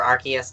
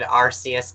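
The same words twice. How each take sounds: First: ARCEUS with a hard K, "AR-kee-us"; corrected hard-K pronunciation. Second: ARCEUS with a soft S, "AR-see-us"; soft-C pronunciation. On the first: Shown as a demonstration. Fan correcting herself, ARCEUS with a hard K. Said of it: "damn it, sorry". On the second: Retold or imitated. Fan quoting the movie, ARCEUS with a soft S. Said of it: "pronunciation of that Pokemon has been flipped".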